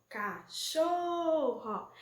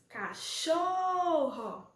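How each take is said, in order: Both takes have the same delivery.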